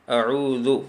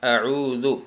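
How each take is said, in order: No difference in how they are said.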